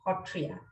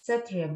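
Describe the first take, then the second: First: The word begins with an h sound. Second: The word begins with an s sound. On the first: This is how it is said locally. "locally we pronounce it as Hotria" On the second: This is the form used for wider discussion. "I would be pronouncing as Satriya"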